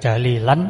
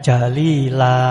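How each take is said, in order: First: The word ends in a short vowel plus n. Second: The word ends in a lengthened vowel without n. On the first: The reading continues to the next word. "Jalilan itu kalau masih ada hubungannya atau masih ada lanjutnya" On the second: The reading stops at this word. "kalau berhenti jadinya jalila"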